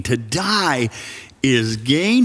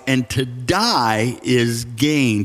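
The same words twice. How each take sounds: First: "To die is gain?" with a pause before "is gain" and a rising question on "gain"; incredulous echo. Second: Slow, weighty reading of "and to die is gain"; solemn quote. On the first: Pastor echoing Paul back at the congregation, disbelieving. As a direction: turn the quote into a disbelieving question. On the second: Pastor reading Paul's words to the congregation, slow and solemn. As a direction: lean on "die" and let "gain" fall, slowly. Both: Shown as a demonstration. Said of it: "Who talks like that?".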